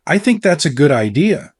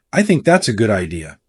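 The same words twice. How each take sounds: First: "I think that's a good idea," rising at the end like a question. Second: "I think that's a good idea." lower, falling firmly on "idea"; downward inflection. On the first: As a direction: make "idea" lift up, unsure. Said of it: "with a questioning tone". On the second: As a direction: settle the line down with conviction. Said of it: "the downward inflection". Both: Shown as a demonstration.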